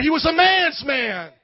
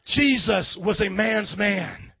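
First: Slow, loud, every word hammered; shouted emphasis. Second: Slow grave statement. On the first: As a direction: shout it like a battle cry. Pastor exalting Jesus' toughness. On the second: Pastor restating quietly for weight. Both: Acted.

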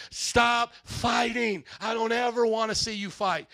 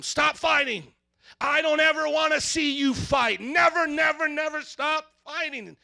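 First: Drawn-out, stressed STOP; slow stern parent. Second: Loud, high scolding shout; parent yelling at kids. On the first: Parent telling kids to stop fighting, slow and firm. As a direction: lay it down slowly, word by word. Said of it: "Any parent ever had to say that". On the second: Parent yelling at fighting kids, loud scolding. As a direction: yell at the kids to quit it. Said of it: "I may say to them". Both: Retold or imitated.

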